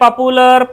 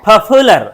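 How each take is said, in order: First: The p is plain, with no puff of air. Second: The p is aspirated, with a strong puff of air. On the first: The speaker calls it wrong. "अब इसको आप पढ़ेंगे तो बोलेंगे पॉपुलर" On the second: The speaker calls it right. "इसको फो समझ के बोलो"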